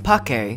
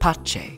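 First: The c is a hard k sound. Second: The c is a ch sound. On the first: This is the classical Latin pronunciation. "Classical Latin, which uses a hard C, as in pace" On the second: This is the church Latin pronunciation. "ecclesiastical... uses a ch sound instead, as in pace"

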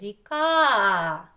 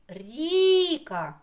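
First: The stress is on the second syllable. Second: The stress is on the first syllable. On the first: The speaker calls it right. "чи на другий? ... На другий склад ставимо наголос" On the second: The speaker calls it wrong. "На перший склад"

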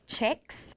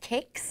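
First: The word begins with a soft ch sound. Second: The word begins with a hard k sound. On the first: The speaker calls it wrong. "Some weird people say checks. That's not how you say it. It's a weird accent in Swedish" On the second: The speaker calls it right. "because it's kicks. You can see the K"

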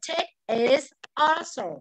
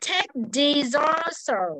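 First: The final T stays separate from the next word. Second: The final T flows into the next word as d. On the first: "Còn nếu không thì chúng ta sẽ đọc là" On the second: "nối âm luôn với chữ Tết này này. Nó sẽ âm đờ nhé"

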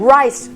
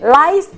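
First: The word begins with a clear R sound. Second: The word begins with an L sound. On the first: It means the grain. The speaker calls it right. "เพราะฉะนั้นใช้ว่า" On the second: It sounds like the word for lice. The speaker calls it wrong. "ถ้าออกเป็นเสียง, rice, มันจะกลายเป็นเห็บหมัดหาวไป"

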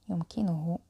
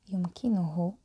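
No difference in how they are said.

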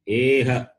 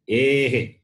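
First: The h is followed by an a echo. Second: The h is followed by an e echo. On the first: The speaker calls it wrong. "It is not Eha" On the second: The speaker calls it right. "Note this"

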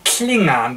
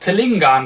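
First: The word begins with a kl sound. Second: The word begins with a tl sound. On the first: The speaker calls it right. "beginnt mit diesem Kl-Laut" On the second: The speaker calls it wrong. "das Falscheste, was man machen kann"

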